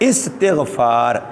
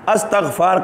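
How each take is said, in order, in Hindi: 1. शब्द की शुरुआत 'i' स्वर से होती है। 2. शब्द की शुरुआत 'a' स्वर से होती है। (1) "इस्तिग़फ़ार ये लफ्ज़ है सही" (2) "अस्तग़फ़ार का लफ्ज़ गलत है"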